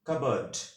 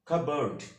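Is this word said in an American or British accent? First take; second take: British; American. First: The word is said in a British accent. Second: The word is said in an American accent. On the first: "British ইংলিশে correct প্রনাউন্সিয়েশনটা" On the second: "American ইংলিশে correct প্রনাউন্সিয়েশনটা"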